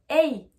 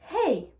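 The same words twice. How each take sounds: First: The h at the start is silent. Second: The h at the start is breathed out. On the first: The speaker calls it wrong. "je ne vais pas dire" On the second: The speaker calls it right. "je prends ma respiration pour pouvoir prononcer le H"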